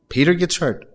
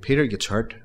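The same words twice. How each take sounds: First: "Peter gets hurt" repeated higher and louder, "Peter" hit hard; stress on Peter. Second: Said in the usual way. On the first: Shown as a demonstration. Preacher repeating the line to his congregation, higher and louder. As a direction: punch "Peter" with a raised voice.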